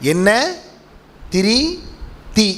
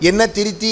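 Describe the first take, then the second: First: The three words are said slowly with pauses. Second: The words are run together quickly without pauses. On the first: Three separate things make a lamp: oil, wick, fire. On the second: It sounds like an instruction to correct oneself.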